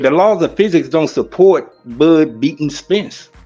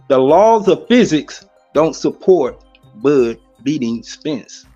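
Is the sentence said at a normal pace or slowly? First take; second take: normal; slowly. First: It is said at a normal conversational speed. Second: It is said slowly and deliberately.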